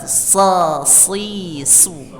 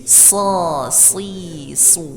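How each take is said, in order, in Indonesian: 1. Bunyi s berat dan tebal. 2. Bunyi s berat dan tebal.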